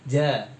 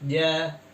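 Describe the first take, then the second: First: Breath audibly flows out with the sound. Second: No breath flows out with the sound. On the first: The speaker calls it wrong. "Agak medok, jadinya ada aliran nafas" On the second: The speaker calls it right. "Nah ini benar"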